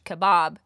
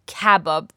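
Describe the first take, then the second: First: English-style "kebab", second syllable stressed; "kebab" as English speakers say it, stressed at the end; English pronunciation of kebab. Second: "kebab" with the first syllable hit hard; Persian-style "kebab", slow and stressed on the first syllable. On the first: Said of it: "different than the English kebab". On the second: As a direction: punch the opening syllable of "kebab". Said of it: "emphasis is on the first syllable". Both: Shown as a demonstration.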